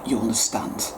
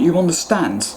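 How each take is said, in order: First: Much softer, sinking low; softly driving the point home, hushed. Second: Said in the usual way. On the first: Real, not acted. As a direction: let You understand fall to a near whisper. Repeated, fading to a whisper.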